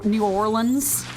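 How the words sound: It is said New Orleans, in a Georgia accent.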